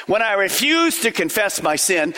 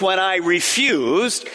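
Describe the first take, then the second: First: Said in the usual way. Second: "refused" said slowly and leaned on, with a rise at the end; stress on refused. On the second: Shown as a demonstration. Pastor pointing his congregation to "refused", slow, leaned-on stress. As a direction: linger on "refused" to show it was a choice.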